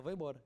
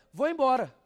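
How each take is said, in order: First: Said in the usual way. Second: Sudden loud high "Vou embora"; wife suddenly announcing she is leaving, loudly; blurted exit line. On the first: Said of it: "ela fala". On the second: Retold or imitated. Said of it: "ela olha pra ele".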